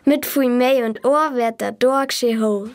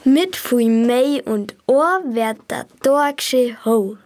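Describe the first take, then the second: First: It is said at normal speed. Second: It is said slowly.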